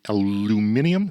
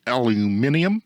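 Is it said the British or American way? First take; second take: British; British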